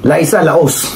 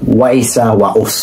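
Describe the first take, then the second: First: Both words begin with a clear L sound. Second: Both words begin with a W sound.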